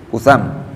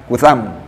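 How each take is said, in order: No difference in how they are said.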